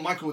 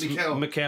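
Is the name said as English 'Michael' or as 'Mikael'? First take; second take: Michael; Mikael. First: The name sounds like the English name Michael. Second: The name is said as Mikael, not Michael. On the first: The speaker calls it wrong. "it's not Michael" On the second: The speaker calls it right. "it's Mikael"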